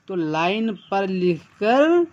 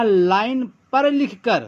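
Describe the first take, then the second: First: "line पर लिखकर" repeated slowly, each word spaced out; slow down and lay out "line पर लिखकर" word by word. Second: Said in the usual way. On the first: Shown as a demonstration. ("Line पर लिखकर" धीरे-धीरे, हर शब्द अलग करके)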